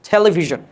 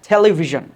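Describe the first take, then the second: No difference in how they are said.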